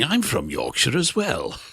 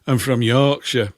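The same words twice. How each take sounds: First: Slow, lightly put-on reply about a Yorkshire accent; talking like this. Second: Slow, imitated Yorkshire accent; put-on Yorkshire voice. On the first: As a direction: draw out the words in answer to the Yorkshire accent. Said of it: "I talk like this". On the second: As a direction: do a Yorkshireman, drawn out. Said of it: "where's that accent from".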